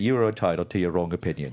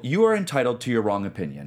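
First: It is said in a put-on character voice. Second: It is said in the speaker's own normal voice.

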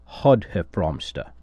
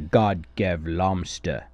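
First: The name is said in a Belgian-style way. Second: The name is read in an English-style way. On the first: The speaker calls it right. "the closer to a correct pronunciation would be Hotheflomster" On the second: The speaker calls it wrong. "in English, breaks down to God Gevlomster"

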